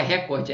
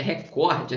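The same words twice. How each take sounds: First: "recorde" com o "ré" inicial forte; tônica no RE. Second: "recorde" com o "cor" forte; tônica no COR. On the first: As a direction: diga "récorde", como proparoxítona. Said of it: "Não é recorde". ("recorde" com tônica na primeira sílaba) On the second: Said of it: "é recorde". ("recorde" com tônica na penúltima) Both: Shown as a demonstration.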